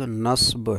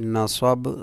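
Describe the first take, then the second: First: The last two consonants come together without a vowel. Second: A vowel separates the last two consonants. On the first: This is the original Arabic form. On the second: This is the usual Urdu form.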